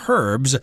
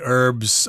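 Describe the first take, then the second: First: The word starts with an H sound. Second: The word starts without an H sound. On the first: This is the English way of saying it. "people in England do pronounce the H. They say herbs" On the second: This is the American way of saying it. "Americans uh, don't pronounce the H. We say herbs"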